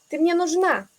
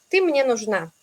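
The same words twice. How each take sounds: First: The pitch goes somewhat higher with more energy. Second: The pitch goes down and stays low. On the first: It is an emphatic statement. "Puedo ir un poco más arriba" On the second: It is a plain statement. "si vamos un poco abajo con la entonación"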